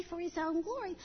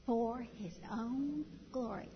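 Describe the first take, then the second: First: Mother models the short answer For his own glory; just say it. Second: Said in the usual way. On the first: Shown as a demonstration. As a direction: say For his own glory simply, nothing more. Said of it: "Just say". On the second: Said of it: "catechism answer".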